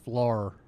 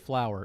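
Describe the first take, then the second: First: It is said in a drawled Southern accent. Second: It is said in a plain American accent. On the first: "My mom is from North Carolina" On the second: "She cannot say flour"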